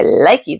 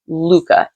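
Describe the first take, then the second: First: The word sounds like 'likey'. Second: The word sounds like 'luca'. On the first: The speaker calls it wrong. "I've been calling it Likey for the longest time" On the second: The speaker calls it right. "Actually, the pronunciation is Luca"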